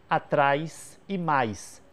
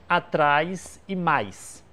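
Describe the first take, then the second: No difference in how they are said.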